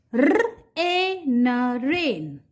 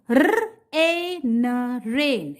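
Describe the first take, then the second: First: "R, A, N" then "rain" as one word; letter by letter, then blend; spell then blend. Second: "R, A, N" letter by letter then "rain"; spell then blend. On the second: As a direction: spell it out, then say the whole word. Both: Shown as a demonstration. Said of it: "In this way, you have to read".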